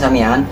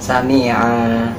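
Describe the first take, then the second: First: The word ends with an n sound. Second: The word ends with a lengthened vowel. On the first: "ini bacanya sami'an" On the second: "ada wakof dibaca sami'a"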